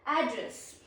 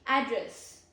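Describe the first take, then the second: First: The stress is on the first syllable. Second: The same.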